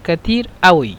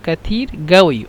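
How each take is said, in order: First: Regional form, with t and glottal stop. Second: Regional form, with t and g sounds. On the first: This is how people in Cairo say it. "যারা কায়রোতে থাকে তারা বলে আউই" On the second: This is how Upper Egyptians say it. "যারা আহলুস সাঈদ তারা কফকে গইন হিসাবে উচ্চারণ করে"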